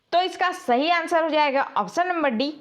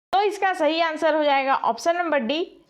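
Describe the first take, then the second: The two takes are said the same way.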